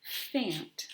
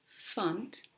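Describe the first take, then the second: First: "fant" with a full short "a" as in ant; "fant" with a clear unreduced vowel in place of the schwa; think to spell. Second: "funt" with the vowel reduced to "uh"; "funt" rhyming with "hunt", a schwa vowel; muffled schwa. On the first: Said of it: "by thinking to spell". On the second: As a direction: say "funt" as the end of elephant is normally spoken. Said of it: "again has that muffled vowel". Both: Shown as a demonstration.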